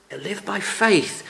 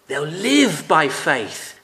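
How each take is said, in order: First: "faith" lifted higher as the key word; stress on faith. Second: "live" drawn out slowly and lifted in pitch; stress on live. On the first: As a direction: put the weight on the final "faith". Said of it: "puts the emphasis on the word faith". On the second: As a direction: lean long and hard on "live". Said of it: "emphasis seems to fall on the word live". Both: Shown as a demonstration.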